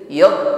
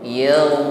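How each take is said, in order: First: The gh sound is stopped and held back. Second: The gh sound flows continuously without stopping. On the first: The speaker calls it wrong. "bukan il yaw sya, tidak tertahan" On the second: The speaker calls it right. "Alirkan yaw yaw"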